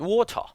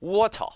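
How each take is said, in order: First: It is said in a British accent. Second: It is said in a British accent.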